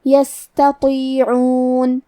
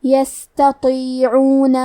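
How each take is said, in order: First: "یستطیعون" chanted slowly with a weak, airy hiss on the seen; tajweed "یستطیعون" with lingering light S, stopped on the final N; soft whispery S. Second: "یستطیعون" chanted slowly with a light T, then a heavy, dark emphatic T; tajweed "یستطیعون" stressing the dark ط after thin ت. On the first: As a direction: let the S of "یستطیعون" flow softly, then draw out the ending. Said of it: "یہ کلمہ کو ایسے پڑھیں گے". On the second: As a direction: make the ط in "یستطیعون" full and heavy. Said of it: "تو کو بھاری آواز میں". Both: Shown as a demonstration.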